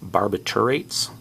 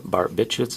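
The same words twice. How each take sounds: First: It is said the formal, technical way. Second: It is said the everyday, common way. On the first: This is the technically correct form. "Technically, I believe it's actually called barbiturates" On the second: This is how most people say it. "is how everybody always says it"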